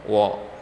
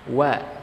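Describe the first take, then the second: First: It is heavy, with the mouth opened wide. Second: It is light, with lips spread sideways. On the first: The speaker calls it wrong. "bukan wo" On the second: The speaker calls it right. "dengan menarik ke bagian sisi kiri ataupun bagian kanannya"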